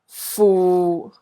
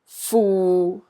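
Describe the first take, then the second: First: The syllable is said in Cantonese tone six. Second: The syllable is said in Cantonese tone six.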